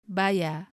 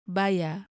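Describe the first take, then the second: The two takes are said the same way.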